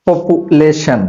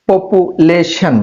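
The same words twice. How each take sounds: First: Said in the usual way. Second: পপুলেশন said very slowly, syllable by syllable; broken into syllables. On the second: Shown as a demonstration. Teacher breaking পপুলেশন into syllables for students, slow. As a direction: stretch পপুলেশন out so students can copy it. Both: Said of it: "একটা ওয়ার্ডকে ভেঙে ভেঙে উচ্চারণ করে শিখো".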